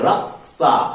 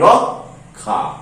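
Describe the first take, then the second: First: The middle cluster sounds like k plus s. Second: The middle cluster sounds like k plus kh. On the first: This is the Hindi pronunciation. "এই রক্ষাটা হিন্দিতে কি উচ্চারণ হয় জানো?" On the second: This is the Bengali pronunciation. "আমরা এর উচ্চারণ কি করি?"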